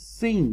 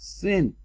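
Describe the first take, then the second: First: The word has a long vowel, like 'seen'. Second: The word has a short vowel, like 'sin'. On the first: The speaker calls it right. "This is sin" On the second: The speaker calls it wrong. "This is not sin"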